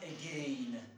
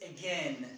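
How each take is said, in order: First: The last syllable rhymes with the word rain. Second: The last syllable has a short e vowel. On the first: The speaker calls it wrong. "It is not again" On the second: The speaker calls it right. "And it is again"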